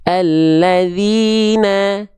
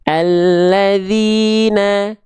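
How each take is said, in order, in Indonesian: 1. Vokal a terdengar tipis dan terang. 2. Vokal a terdengar tipis dan terang.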